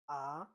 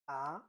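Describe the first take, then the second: Both takes have the same delivery.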